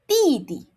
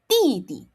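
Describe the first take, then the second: First: Each syllable starts with an unaspirated t-like sound. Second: Each syllable starts with an unaspirated t-like sound.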